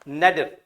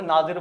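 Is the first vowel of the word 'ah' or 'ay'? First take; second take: ay; ah. First: The first vowel sounds like 'ay'. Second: The first vowel sounds like 'ah'. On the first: The speaker calls it right. "लेकिन नेडर" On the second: The speaker calls it wrong. "इसे नादिर बोल देते हैं कुछ लोग"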